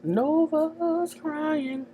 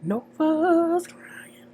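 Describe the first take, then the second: First: High, slow, voiced taunt; teasing singsong. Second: High, slow teasing whisper; mock whisper. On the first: Recapper taunts the crying character, slow high singsong. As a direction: croon it high and slow to mock her. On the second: Recapper whispers a taunt at the crying character, slow whisper. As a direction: breathe it out high and slow to tease. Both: Mocking Nova's tears.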